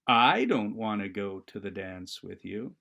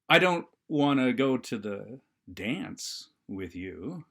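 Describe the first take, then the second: First: The word I carries the strongest stress. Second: The word dance carries the strongest stress. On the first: Someone else does want to go with you. "it means uh, I I I I don't want to go to the dance with you, but I sure know who does" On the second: Skip the dance and go to the party instead. "okay, skip the dance. Let's go right to the after party"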